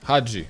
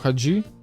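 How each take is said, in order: First: The stress is on the first syllable. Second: The stress is on the second syllable. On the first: This is how the name is said in its home country. The speaker calls it right. "наголос на А" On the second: This is how the name is usually said locally. The speaker calls it wrong. "Ми кажемо Хаджі"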